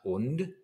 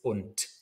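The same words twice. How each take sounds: First: The final consonant is a voiced d sound. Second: The final consonant is a voiceless t sound. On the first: The speaker calls it wrong. "a voiced consonant at the end of a word ... So it's not und" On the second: The speaker calls it right. "becomes voiceless ... it's und"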